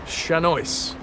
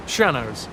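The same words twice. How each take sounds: First: Shanois with an oy sound, SHAN-oys; pronunciation attempt. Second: Shanos like shallows, SHAN-ohz; pronunciation attempt. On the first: Streamer testing the word for chat, Shanois as shan-oys. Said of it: "how to explain the pronunciation". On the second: Streamer correcting the word for chat, Shanos like shallows. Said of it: "Like shallows, but with an N". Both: Shown as a demonstration.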